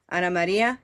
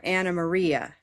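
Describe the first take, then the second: First: Ana Maria with a tapped Spanish R; Spanish pronunciation. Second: Ana Maria with English R, long REE; English pronunciation. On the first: Teacher shows first of two ways, Spanish pronunciation. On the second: Teacher shows the added way, English pronunciation. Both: Shown as a demonstration. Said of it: "you have two ways to say it now".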